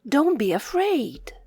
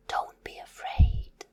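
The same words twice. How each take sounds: First: Said in the usual way. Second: Whispered reassurance. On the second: Shown as a demonstration. Teacher whispering comfort to a scared child. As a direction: breathe it softly, no voice.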